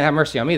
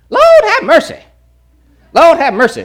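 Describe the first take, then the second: First: Said in the usual way. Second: High, loud tutting exclamation; derogatory Lord have mercy. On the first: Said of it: "they're not saying". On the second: Retold or imitated. Pastor mimicking a Louisiana churchgoer, high and loud. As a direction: scoff it out like a scandalised church auntie. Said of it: "kind of more of a derogatory term".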